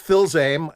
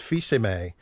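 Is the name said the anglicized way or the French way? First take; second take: anglicized; French. First: The name sounds like English 'Phil's aim'. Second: The name is said with French sounds. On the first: This is how others wrongly called him. The speaker calls it wrong. "Throughout grade school, I was Phil's aim" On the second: This is how he insists it be said. The speaker calls it right. "I put my foot down, and it's Fils-Aimé"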